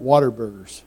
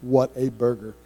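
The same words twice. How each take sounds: First: "water burgers" run together like the drink water; local slang pronunciation. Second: "What a Burger" as three clear words, "What" stressed; proper pronunciation. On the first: Texans' casual name for the burger chain. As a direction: slur "water burgers" into one casual word. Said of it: "but it's What a Burger". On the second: Preacher correcting the name for the congregation. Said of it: "We call 'em water burgers". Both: Shown as a demonstration.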